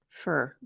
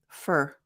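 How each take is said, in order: First: The word has a weak, reduced vowel. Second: The same.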